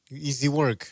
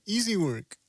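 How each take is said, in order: First: Said in the usual way. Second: Mock New Zealand accent, pitched up. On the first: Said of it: "as they say". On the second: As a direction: say it like a cocky Kiwi boxer. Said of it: "Easy work with the, uh, New Zealand accent".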